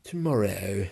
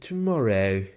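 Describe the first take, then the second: No difference in how they are said.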